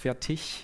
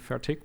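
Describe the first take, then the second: First: The word ends in a soft ch-like sound. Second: The word ends in a hard k sound. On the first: This is the standard German form. The speaker calls it right. "in proper German it's fertig" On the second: This is a regional dialect form. The speaker calls it wrong. "due to my dialect, I put a hard K at the end, so I always say fertig"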